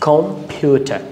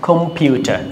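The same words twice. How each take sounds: No difference in how they are said.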